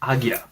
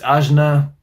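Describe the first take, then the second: First: The middle sounds like 'g' followed by 'y'. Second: The middle sounds like 'j' followed by 'n'. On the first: The speaker calls it right. "it's apparently Agya" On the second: The speaker calls it wrong. "Is this Ajna? Because that sounds pretty good. But um, no"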